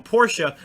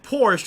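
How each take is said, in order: First: "Porsche" said as "POR-shuh"; "Porsche" in two syllables, ending in "shuh". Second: "Porsche" said as "porsh"; "Porsche" in one syllable, silent e. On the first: Retold or imitated. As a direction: say "Porsche" with a final "uh". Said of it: "he's on the stream going Porsche". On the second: Shown as a demonstration. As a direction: say "Porsche" with no final vowel, like "porsh". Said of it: "I always called it Porsche".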